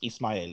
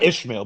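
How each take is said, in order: First: The name is said with an 's' sound. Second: The name is said with an 'sh' sound. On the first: The speaker calls it right. "is how you pronounce it in Spanish" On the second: The speaker calls it wrong. "not Ishmael"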